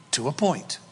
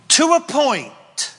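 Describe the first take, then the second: First: Said in the usual way. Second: Much higher and louder, slow, a commanding proclamation; God setting a firm limit, loud; booming God voice. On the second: Acted. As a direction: draw the line like a thundering God. Preacher voices God to Lucifer.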